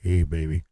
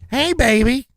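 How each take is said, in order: First: It is said in a very deep voice. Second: It is said in a higher voice.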